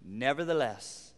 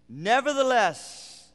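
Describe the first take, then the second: First: Said in the usual way. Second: Slow, lifted "Nevertheless" with weight; drawn-out stressed Nevertheless. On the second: Shown as a demonstration. Preacher lingering on the key word, stressed. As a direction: lean hard on "Nevertheless". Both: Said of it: "Now, the word".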